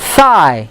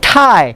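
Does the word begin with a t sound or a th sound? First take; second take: th sound; t sound. First: It begins with a th sound, tongue between teeth. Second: It begins with a plain t sound. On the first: It means the upper part of the leg. The speaker calls it right. "So thigh" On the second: It sounds like the word for a necktie. The speaker calls it wrong. "It's not thigh. Thigh is tali leher"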